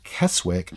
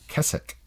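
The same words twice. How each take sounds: First: The middle W is pronounced. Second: The middle W is silent. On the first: The speaker calls it wrong. "looks like Keswick" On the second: The speaker calls it right. "It's actually Keswick"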